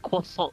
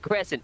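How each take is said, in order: First: It is pronounced with a French accent. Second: It is pronounced like the English word crescent. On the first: The speaker calls it right. "when French people are like, it's croissant" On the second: The speaker calls it wrong. "it's not a crescent"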